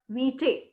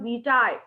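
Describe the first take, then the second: First: The ending does not sound like 'tie'. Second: The ending sounds like 'tie', rhyming with mitai. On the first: The speaker calls it wrong. "It is not vitae" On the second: The speaker calls it right. "you call it in Hindi and Kannada, mitai, like that"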